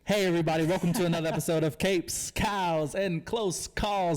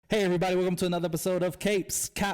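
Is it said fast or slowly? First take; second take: slowly; fast. First: It is said slowly. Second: It is said fast.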